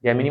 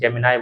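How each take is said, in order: First: "Gemini" ending in an "ee" sound; first pronunciation. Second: "Gemini" ending in an "eye" sound; alternative pronunciation. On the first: Teacher comparing names for the app, "Gemini" ending in "nee". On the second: Teacher giving the other name people use, "Gemini" ending in "nai". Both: Shown as a demonstration. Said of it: "Gemini बोल रहे हैं उसे".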